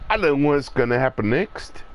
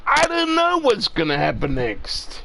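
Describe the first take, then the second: First: Rattled off quickly, plain voice. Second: Excited, higher. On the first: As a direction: toss the line off fast. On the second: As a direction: say it again with real thrill. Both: Shown as a demonstration. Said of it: "repeated line".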